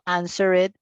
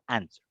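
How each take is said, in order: First: The -ed ending is a separate extra syllable. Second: The -ed ending joins the last syllable. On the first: The speaker calls it wrong. "Yo no digo answered" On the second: The speaker calls it right. "sino answer"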